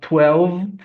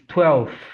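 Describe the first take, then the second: First: It has a v sound before the th. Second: It has an f sound before the th. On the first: The speaker calls it wrong. "So it's not twelve" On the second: The speaker calls it right. "twelve with F"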